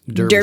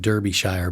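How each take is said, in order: First: The name is said the way English locals say it. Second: The name is read just as it is spelled. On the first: The speaker calls it right. "because I have friends in England, it's Derbyshire" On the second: The speaker calls it wrong. "It looks like Derbyshire"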